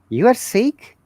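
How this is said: It is said as a question, rising. The speaker is asking whether the listener is sick. "This is a question"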